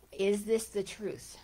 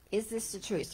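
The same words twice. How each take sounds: First: Is THIS the truth, weight on "this"; stress on this. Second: IS this the truth, weight on "is"; stress on is. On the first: Teacher asks the audience the question, stress on "this". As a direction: lean on "this" as the question. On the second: Teacher repeats the question, stress on "is". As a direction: press "is" to doubt the claim. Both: Shown as a demonstration.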